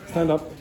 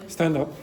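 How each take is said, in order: No difference in how they are said.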